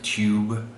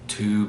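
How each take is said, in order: First: It is said with a Y sound before the vowel. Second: It is said with no Y sound before the vowel. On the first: "instead of" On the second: "we drop the yod"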